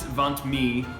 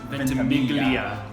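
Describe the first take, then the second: First: The name is pronounced with French sounds. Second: The name is pronounced with Italian sounds. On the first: "In French" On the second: "In Italian"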